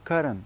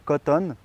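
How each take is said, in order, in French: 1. Le t du milieu est léger, accent tonique au début. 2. Le t du milieu se prononce fort. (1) "l'accent tonique au début" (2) "ça c'est beaucoup trop fort"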